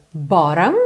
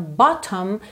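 First: "bottom" with a tapped r-like T, "boram"; American flap T. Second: First "bottom" with a clear T; full T. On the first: Teacher shows typical American pronunciation, "bottom" with a tapped T. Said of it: "Pronúncia típica americana, rarará". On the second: Teacher shows the starting form, "bottom" with a true T. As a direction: say "bottom" with a crisp T in the middle. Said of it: "bottom virou bottom". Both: Shown as a demonstration.

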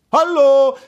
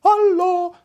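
First: Loud, high call. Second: High, ringing echo of a call. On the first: Prince calling into the deserted gorge, loud call. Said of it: "rief der Prinz". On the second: Echo answering the prince in the gorge, high echo. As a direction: throw it back like an echo. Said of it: "sagte ein Echo". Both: A narrator's reading.

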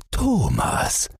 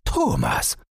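First: High startled cry of the name; startled call. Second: Said in the usual way. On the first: Acted. Father suddenly spotting his son under the boat, high startled call.

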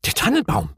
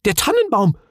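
First: Puzzled, questioning echo; confused echo before the realisation; confused repeat. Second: High, loud alarmed cry; panicked outcry on realising; sudden panic. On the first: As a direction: repeat it blankly, not understanding. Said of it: "wiederholte die Gafsa verwirrt". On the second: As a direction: realise it in a fright. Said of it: "vor Nervosität fast in Tränen". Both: A narrator's reading.

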